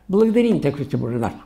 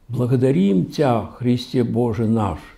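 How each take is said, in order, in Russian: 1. Молитву произносят небрежно и поспешно. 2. Молитву читают внимательно и благоговейно. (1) "Швырнули более, швырнули" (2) "Здорово, хорошо?"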